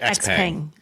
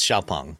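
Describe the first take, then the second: First: The name begins with the letter name 'eks'. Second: The name begins with a 'shyao' sound. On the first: The speaker calls it wrong. "to someone reading it in English, it looks like X-Peng" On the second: The speaker calls it right. "But it's Xiaopeng"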